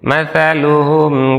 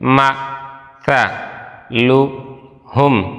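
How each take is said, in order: First: The syllables are joined smoothly without breaks. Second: Each syllable is said separately with breaks between. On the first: "আসুন মিলিয়ে পড়ি" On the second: "ভাঙ্গা ভাঙ্গা উচ্চারণ করি"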